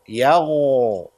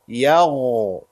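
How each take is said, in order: First: The consonant is a soft throaty gh sound. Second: The same.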